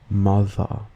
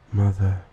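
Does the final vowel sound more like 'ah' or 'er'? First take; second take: ah; er. First: The final vowel is an open ah sound. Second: The final vowel is a more er sound. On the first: "all contain the schwa vowel at the end of the word" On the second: "In a common British accent, these sound more like"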